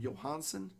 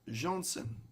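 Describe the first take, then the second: First: The name has a middle 'ah' vowel. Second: The name has no middle 'ah' vowel. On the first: The speaker calls it wrong. "I've always said it Johansson" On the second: The speaker calls it right. "I believe it's actually Johnson"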